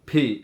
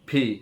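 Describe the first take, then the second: The two takes are said the same way.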